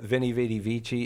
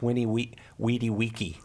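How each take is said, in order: First: It uses the church Latin pronunciation. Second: It uses the classical Latin pronunciation. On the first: "Instead of Vini Vidi Vici" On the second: "Haven't you ever heard the difference between church Latin and classical Latin?"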